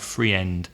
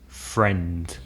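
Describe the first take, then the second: First: The word is split into two syllables. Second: The word is said as one syllable. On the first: The speaker calls it wrong. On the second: The speaker calls it right.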